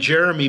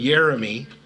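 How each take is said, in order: First: The name starts with a hard J sound. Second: The name starts with a Y sound.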